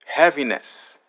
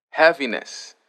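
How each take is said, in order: Both takes have the same delivery.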